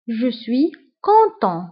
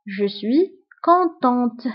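First: "content" ending on a nasal vowel, T silent; silent final T. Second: "contente" with a clearly sounded T at the end; final T pronounced. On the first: Teacher modelling the masculine form, "content" with silent T. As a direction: say "content" slowly without sounding the last T. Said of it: "ما كنطقوش تي في آخر الكلمة". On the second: Teacher modelling the feminine form, "contente" with sounded final T. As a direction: slowly close "contente" on an audible T. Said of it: "وفي النطق كنطقوا تي". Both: Shown as a demonstration.

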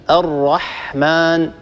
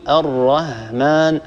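First: الرحمن with a clear throat ħ; الرحمن said properly with ح; correct pronunciation. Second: Slow wrong الرحمن with هاء instead of ح; mispronounced demo. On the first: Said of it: "فبدل أن يقول مثلًا الرحمن". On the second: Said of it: "هكذا ينطق الحاء هاء". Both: Shown as a demonstration.

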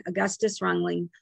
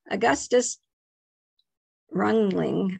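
First: Said in the usual way. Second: Augustus Rungling in a light German accent; attempting a German pronunciation of the name. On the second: Shown as a demonstration. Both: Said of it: "my German accent is not correct".

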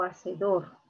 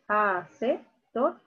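First: Hacedor joined up, weight on DOR; stress on last syllable. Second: Hacedor split into a, CE, dor, weight on CE; wrong syllable stressed. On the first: Teacher offering the second option to students, hacedor with stressed final DOR. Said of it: "¿Dónde está la mayor fuerza de voz?". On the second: Teacher quizzing students with a false option, split hacedor with stressed CE. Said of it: "¿Cómo sería? ¿Dónde está la mayor fuerza de voz?". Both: Shown as a demonstration.

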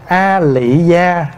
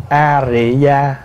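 First: Slow "A Lị Gia", L at the start of "Lị"; pronounced with L. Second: Slow "A Rị Gia", R at the start of "Rị"; pronounced with R. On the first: Monk relaying which reading is correct, slow L version "A Lị Gia". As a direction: say "A Lị Gia" slowly with a clear L. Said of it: "mình đọc là A Lị Gia đúng". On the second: Monk relaying which reading is correct, slow R version "A Rị Gia". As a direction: say "A Rị Gia" slowly with a clear R. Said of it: "hay mình đọc A Rị Gia đúng". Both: Shown as a demonstration.

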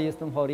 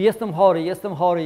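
First: Said in the usual way. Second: Głośne, jęczące narzekanie na chorobę; zawodzi, że jest chory, coraz bardziej teatralnie. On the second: Retold or imitated. (głośne biadolenie „jestem chory”) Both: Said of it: "przychodzi, mówi".

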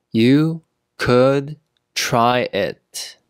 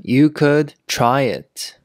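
First: One word at a time, slowly; slow teaching pace. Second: Said in the usual way. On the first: Shown as a demonstration. Teacher modelling "try it" for learners, word by word. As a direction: leave a clear gap after each word.

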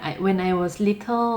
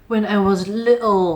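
First: English in a relaxed Thai accent, little rising at the end. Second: Demonstrated British accent, drawn out on little. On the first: Teacher shows learners an acceptable version, Thai accent. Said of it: "เราอาจจะสำเนียงไทยเป็น". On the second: Teacher showing learners an unnecessary posh model, British accent. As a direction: put on a British English accent, a touch higher. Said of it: "ไม่จำเป็นจะต้องแบบสำเนียงแบบ British". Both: Shown as a demonstration.

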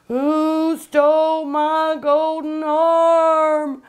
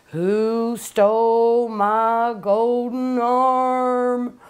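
First: Higher, louder, very slow haunting wail; louder ghost wail. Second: Very slow, drawn-out eerie moan; spooky ghost-story voice. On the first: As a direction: let the ghost's cry swell and hang. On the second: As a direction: stretch every word like a ghost in the dark. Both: Retold or imitated. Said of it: "at the end she'd say".

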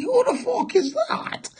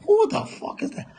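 First: Mock whine. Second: Fast, whispered repeat of the question. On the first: Mock voice asking who he is. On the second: Pretend. Repeating the question to himself, fast whisper. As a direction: hiss it quickly under the breath.

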